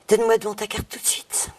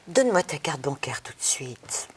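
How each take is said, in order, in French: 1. Il est dit avec une impatience croissante. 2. Il est dit sans impatience. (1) "Petite impatience qui commence à, à naître" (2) "Premier sentiment, première émotion"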